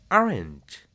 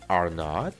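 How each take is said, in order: First: Are and not are joined into one word. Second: Are and not are said as separate words. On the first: The speaker calls it right. "mejor di" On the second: The speaker calls it wrong. "En vez de decir"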